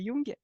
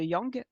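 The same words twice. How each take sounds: First: The name is pronounced the German way. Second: The name is pronounced the American way. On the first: The speaker calls it right. "je vais le prononcer à l'allemande comme il faut" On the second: The speaker calls it wrong. "pas l'américaine"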